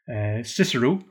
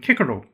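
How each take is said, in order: First: Cicero begins with a soft S sound. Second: Cicero begins with a hard K sound. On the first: This is the later, familiar pronunciation. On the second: This is the original classical pronunciation.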